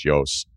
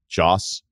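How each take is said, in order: First: The name is said the European way. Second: The name is said the American way. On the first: "but I think over there it's Jos" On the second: "Joss Stone, I think, here in the States"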